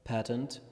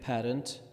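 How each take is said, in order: First: It is said with an American pronunciation. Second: The same.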